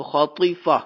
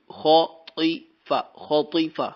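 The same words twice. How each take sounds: First: Said in the usual way. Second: خاطفہ drawn out very slowly, خ and ط thick and heavy; heavy letters demo. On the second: Shown as a demonstration. Teacher models خاطفہ for the student, slow with heavy letters. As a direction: drag خاطفہ out, with full heavy خ and ط. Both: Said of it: "خا بھی موٹی، طا بھی موٹی".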